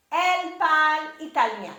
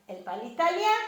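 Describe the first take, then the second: First: Said in the usual way. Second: "italien" rising at the end as a question; rising question intonation. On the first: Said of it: "as you raise your voice at the end". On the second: Shown as a demonstration. Teacher making a French statement a question, rising intonation. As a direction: raise the voice on "italien" to ask. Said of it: "as you raise your voice at the end of the sentence".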